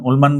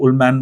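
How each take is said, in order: First: उलमान said Ool-maan, a long open aa in the last syllable; उलमान with a broad Hindi aa ending; one way of saying the name. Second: उलमैन said Ool-men, an English-style e in the last syllable; उलमैन with a short flat English ending; other way of saying the name. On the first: Teacher unsure of the author's name tries उलमान with a long aa. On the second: Teacher unsure of the author's name tries उलमैन, anglicised. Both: Shown as a demonstration. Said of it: "I don't know what to pronounce".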